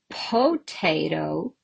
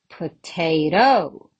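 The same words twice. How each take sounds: First: The stress is on the first syllable. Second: The stress is on the third syllable. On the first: "I can say potato" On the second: "and I can say potato"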